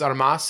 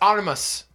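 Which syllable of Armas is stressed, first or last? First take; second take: last; first. First: The stress is on the last syllable. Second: The stress is on the first syllable. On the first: The speaker calls it wrong. "if it was Armas, it would have a" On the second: The speaker calls it right. "it's Armas, and I'll tell you why"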